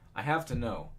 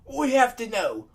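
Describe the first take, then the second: First: It is said in the speaker's ordinary accent. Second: It is said in an attempted Scottish accent.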